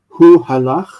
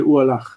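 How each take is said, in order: First: The h at the start of halach is pronounced. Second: The h at the start of halach is dropped. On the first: "You say you would say like hu halach" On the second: "but we would say u halach without the hey. Like it sounds more natural to us"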